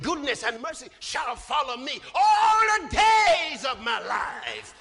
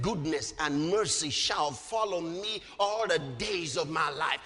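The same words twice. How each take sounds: First: Loud preacher's proclamation swelling on "all the days"; emphatic declaration. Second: Low, even recitation; measured scripture quote. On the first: Preacher correcting what David said, loud bold declaration. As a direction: proclaim it, stretching the last words. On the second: Preacher quoting David to congregation, measured recitation. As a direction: recite the verse low and steady. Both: Retold or imitated.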